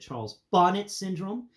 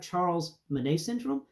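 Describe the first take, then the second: First: The surname sounds like "bonnet," with a final t. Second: The surname sounds like "Monet," with no final t. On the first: The speaker calls it right. "please pronounce it Charles Bonnet syndrome" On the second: The speaker calls it wrong. "the French pronounce bonnet Monet"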